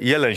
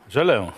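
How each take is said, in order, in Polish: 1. Nazwisko wymawia się z polską wymową. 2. Nazwisko wymawia się z francuską wymową. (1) "Jeleń się nazywał. Tak polski piłkarz" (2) "Komentator francuski mówi"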